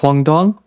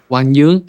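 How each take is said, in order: First: The name is said with English-style sounds. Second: The name is said with Vietnamese-style sounds.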